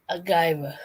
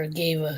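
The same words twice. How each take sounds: First: Agave said "uh-KY-vuh"; agave one way. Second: Agave said "uh-KAYV", short; agave the other way. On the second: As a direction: say agave as uh-KAYV, clipped ending. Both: Shown as a demonstration. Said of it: "or agave".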